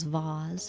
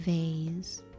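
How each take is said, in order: First: It is said in a British accent. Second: It is said in an American accent.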